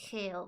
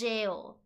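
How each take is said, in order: First: The word begins with a harsh h sound. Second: The word begins with a j sound. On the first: This is how it is said in Spanish. "In Spanish, I say it hell" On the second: This is probably how it is said in English. "but I imagine it's jail"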